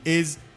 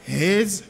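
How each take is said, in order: First: The word begins without any h sound. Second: The word begins with a clear h sound. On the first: "lorsque m'a parlé ... M'a dit is" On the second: "on dit his"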